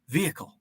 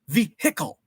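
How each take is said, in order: First: The H is silent and the word flows together. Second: The H is pronounced, almost a pause before it. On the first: The speaker calls it right. "I just call it a vehicle" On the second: The speaker calls it wrong. "like overpronounced it"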